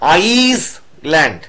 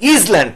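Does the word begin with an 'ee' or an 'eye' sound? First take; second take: eye; ee. First: The word begins with an 'eye' sound. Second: The word begins with an 'ee' sound. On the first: The speaker calls it right. "আই আই আইসল্যান্ড" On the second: The speaker calls it wrong. "ইসল্যান্ড না"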